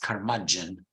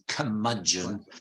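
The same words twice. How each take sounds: First: It is said in an American accent with R. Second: It is said in a British accent without R.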